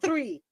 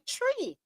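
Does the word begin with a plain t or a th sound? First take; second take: th; t. First: The word begins with a th sound. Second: The word begins with a plain t sound. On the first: "I say" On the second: "many Jamaicans say tree"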